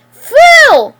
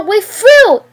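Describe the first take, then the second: First: Very high, much louder scream; full scream. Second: High, loud angry shout. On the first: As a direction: scream the single word with everything. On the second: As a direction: shout the breakup at him. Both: Acted. Riley screams after her boyfriend.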